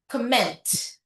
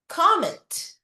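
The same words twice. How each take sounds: First: The stress is on the second syllable. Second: The stress is on the first syllable. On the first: It is a verb. "pag verb ... nasa pangalawang syllable" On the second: It is a noun. "Pag noun, nasa umpisa yung stress"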